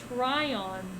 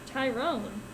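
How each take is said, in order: First: The name begins with 'try' and ends in 'on'. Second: The name begins with 'tie' and ends in 'rone'. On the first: The speaker calls it right. "It's Tryon. Try one's luck" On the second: The speaker calls it wrong. "it's not Tyrone"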